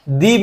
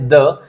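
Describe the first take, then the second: First: It is said with a long 'ee' vowel. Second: It is said with a short 'uh' vowel. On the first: "कभी कभी दी भी pronounce करते हैं" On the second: "definite articles में जैसे कि आता है द"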